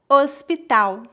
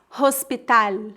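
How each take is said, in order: First: The word ends with a 'u'-like sound. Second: The word ends with a clear 'l' sound. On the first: The speaker calls it right. "e sim" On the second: The speaker calls it wrong. "não dizemos"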